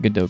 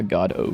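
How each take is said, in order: First: The word is said the speaker's usual way. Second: The word begins like 'God', then 'oh'.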